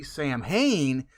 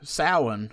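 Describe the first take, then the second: First: It sounds like 'sam-hain', following the letters. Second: It sounds like 'sow-en', with silent letters. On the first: The speaker calls it wrong. "the word is Sam Hain because when you see Sam Hain, that's how it's pronounced" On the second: The speaker calls it right. "it's pronounced as S O W um, E N"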